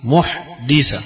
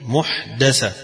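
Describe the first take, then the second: First: محدثة as muh-DI-sa, slowly split; muhdisa, the doer form, sounded out; kasra on the dal. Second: محدثة as muh-DA-sa, slowly split; muhdasa, the object form, sounded out; fatha on the dal. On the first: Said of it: "فمعنى الكسر". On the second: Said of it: "وبالفتح". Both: Shown as a demonstration.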